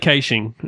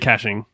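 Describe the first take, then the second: First: The word is pronounced the Australian way. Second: The word is pronounced the American way. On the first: "Here we say caching" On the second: "in America, they say caching"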